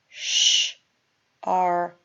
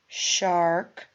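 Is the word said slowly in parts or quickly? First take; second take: slowly; quickly. First: It is said slowly, split into parts. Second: It is said quickly as one word.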